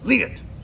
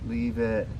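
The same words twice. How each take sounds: First: It is said firmly in a raised voice. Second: It is said softly in a normal voice. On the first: The speaker calls it right. "It has to be more of a leave it" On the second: The speaker calls it wrong. "you can't always say leave it"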